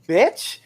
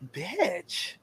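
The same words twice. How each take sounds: First: It is said like an exclamation. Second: It is said like a question.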